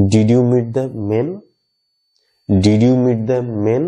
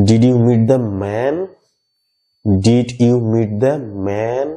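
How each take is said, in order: First: Very slow, men short and half closed. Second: Very slow, man with an open short e. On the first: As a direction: clip men tight. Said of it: "আবার". (খুব ধীরে, খাটো করে men) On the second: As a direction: stretch man wide open. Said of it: "মানে short এর sound ম্যান". (খুব ধীরে, খোলা মুখে man) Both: Shown as a demonstration.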